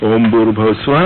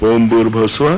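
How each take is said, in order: The two takes are said the same way.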